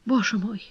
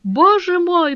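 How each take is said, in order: First: Soft, broken lament; faint, crushed despair. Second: High, drawn-out despairing cry; anguished, higher-pitched lament; broken, near sobbing. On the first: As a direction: murmur it brokenly, close to tears. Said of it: "проговорила она разбитым голосом". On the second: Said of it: "в котором слышались рыдания". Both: A narrator's reading.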